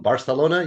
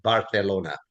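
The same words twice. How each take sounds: First: Said in the usual way. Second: "Barcelona" with the c said as TH; lisped Castilian c. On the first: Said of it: "Instead of Barcelona". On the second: Shown as a demonstration. Telling how the courtly speech began, lisped Castilian c. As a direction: say "Barcelona" as Bar-the-lona. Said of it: "He pronounced it with a T H".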